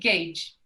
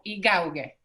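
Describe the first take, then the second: First: It is said without sounding every written letter. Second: Every written letter is sounded out as spelled. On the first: This is how the word is really said. The speaker calls it right. "la verdad es que se, se dice" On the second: Someone who does not know the word might say it this way. The speaker calls it wrong. "las podría pronunciar como"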